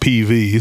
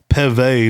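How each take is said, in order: First: The name is said as two separate letters. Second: The name is said as one word. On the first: The speaker calls it wrong. "not P V" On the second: The speaker calls it right. "they prefer Peve"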